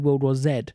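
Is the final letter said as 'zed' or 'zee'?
zed. The final letter is pronounced 'zed'. "I don't say World War Z"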